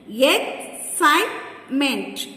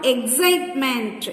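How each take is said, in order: First: "Excitement" slowly in three beats, Ex, cite, ment; slow, broken-up "Excitement" for counting; syllable by syllable. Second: Said in the usual way. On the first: Shown as a demonstration. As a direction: pause between the syllables of "Excitement". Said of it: "Three syllables". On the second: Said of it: "Divide each word".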